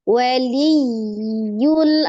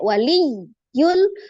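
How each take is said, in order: First: The word flows smoothly without any break. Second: The word is cut apart before the last syllable. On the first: The speaker calls it right. "tapi waliyul, ada yi. Ya, maksudnya mengalir dia" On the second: The speaker calls it wrong. "tidak diputus. Jadi tidak wali yul"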